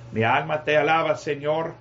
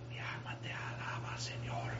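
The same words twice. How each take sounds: First: Said in the usual way. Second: Barely audible, breath-only praise; mock whisper. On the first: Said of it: "Como algunos dicen". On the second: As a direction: imitate a worshipper who only whispers to God. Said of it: "hablando bien bajo, hermanos". (susurro apenas audible, en tono de imitación)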